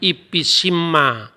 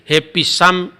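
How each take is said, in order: First: It is read as ipisimma, ending in -imma. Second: It is read as hefitsam, ending in -am. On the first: "bacaan Samaria itu beda" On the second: "bacaan Masoretik yang standar orang Yahudi"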